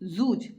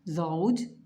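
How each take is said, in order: First: The vowel is a single plain u. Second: The vowel glides as a diphthong, au. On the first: This is the everyday colloquial pronunciation. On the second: This is the formal Quranic pronunciation.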